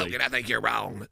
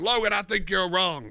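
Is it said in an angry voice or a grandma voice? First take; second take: grandma voice; angry voice. First: It is said in an old grandma voice. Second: It is said in an angry, mad voice.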